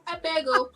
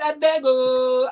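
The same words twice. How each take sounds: First: The final O is short and clipped. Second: The final O is drawn out long.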